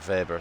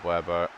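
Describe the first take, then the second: First: The name starts with a V sound. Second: The name starts with a W sound. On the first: The speaker calls it right. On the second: The speaker calls it wrong.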